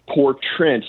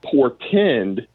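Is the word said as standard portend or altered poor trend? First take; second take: poor trend; standard. First: The word is said like 'poor trend'. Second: The word is said in its usual form. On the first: The speaker calls it wrong. "He got the word wrong" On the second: The speaker calls it right. "instead of saying portend"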